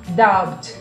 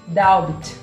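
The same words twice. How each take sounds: No difference in how they are said.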